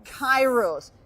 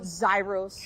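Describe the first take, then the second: First: The name begins with a K sound. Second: The name begins with a Z sound. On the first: The speaker calls it right. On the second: The speaker calls it wrong. "do I pronounce it Zyros?"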